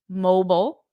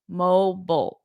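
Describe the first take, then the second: First: It is said in an American accent. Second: The same.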